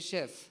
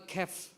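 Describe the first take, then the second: First: The word begins with a soft sh sound. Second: The word begins with a hard k sound. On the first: The speaker calls it right. "you say chef" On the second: The speaker calls it wrong. "they have also written character"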